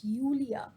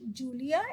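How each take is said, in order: First: Julia said YOO-lia, J sounded as Y; the German Julia, starting like "you". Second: Julia said JOO-lia, with an English J; the wrong Julia, hard J as in jam. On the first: Teacher gives learners the correct German Julia, YOO-lia. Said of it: "it's Julia". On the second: Teacher shows the mistake to avoid, Julia with English J. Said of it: "not Julia, it's Julia". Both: Shown as a demonstration.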